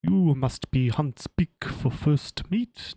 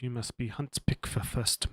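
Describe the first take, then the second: First: Slow, loud, put-on military voice; weird officer voice. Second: Said in the usual way. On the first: Shown as a demonstration. GM trying a slow odd voice for Gant. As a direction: drag it out like a stiff officer. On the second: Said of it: "what a weird voice should I do".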